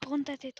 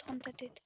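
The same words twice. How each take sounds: First: Said in the usual way. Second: Softer urgent hush; hushed repeat. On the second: Real, not acted. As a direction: drop to a hush while hiding. (chuchotement pressant)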